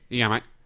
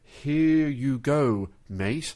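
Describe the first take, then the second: First: It is said quickly, run together. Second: It is said slowly and drawn out.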